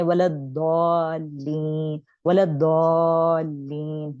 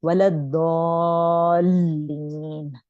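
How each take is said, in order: First: वलद्दौलीन drawn slowly with a stressed लल; wrong stress. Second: वलद्दौलीन very slow, smooth madd; correct reading. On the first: Teacher showing students how not to read it. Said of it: "यूं नहीं पढ़ेंगे". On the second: Teacher giving students the proper prayer recitation. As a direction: draw out वलद्दौलीन evenly. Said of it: "नहीं". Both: Shown as a demonstration.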